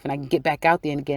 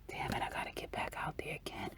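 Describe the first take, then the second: First: Said in the usual way. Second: Whispered, grudging complaint; whispered grumble. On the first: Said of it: "you're like". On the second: Retold or imitated. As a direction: mutter it under your breath in a whisper. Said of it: "And he's like".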